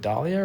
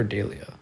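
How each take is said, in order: First: Dahlia said DAH-lee-uh; first name option. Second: Dahlia with a different first vowel, not "ah"; alternative name pronunciation. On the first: Streamer checking a viewer's name, Dahlia as DAH-lee-uh. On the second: Streamer checking a viewer's name, Dahlia in its alternative pronunciation. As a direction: offer Dahlia as DAY-lee-uh, the other option. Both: Shown as a demonstration. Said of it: "Is it Dahlia or Dahlia".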